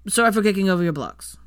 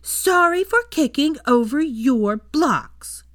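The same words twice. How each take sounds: First: Hurried, louder, grudging apology; rushed. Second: Put-on loud, high, drawn-out child's shout. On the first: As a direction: get the apology out in one rush. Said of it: "said in a rush". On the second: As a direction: shout each word slowly, high-pitched. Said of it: "and he shouted". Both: A narrator's reading.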